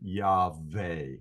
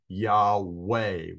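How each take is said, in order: First: The middle consonant is a V sound. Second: The middle consonant is a W sound. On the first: The speaker calls it right. "with a V uh, sound" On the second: The speaker calls it wrong. "with a W sound"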